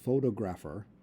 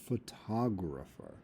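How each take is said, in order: First: The stress is on the first syllable. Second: The stress is on the second syllable. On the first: The speaker calls it wrong. "You don't say photographer" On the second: The speaker calls it right. "you say photographer"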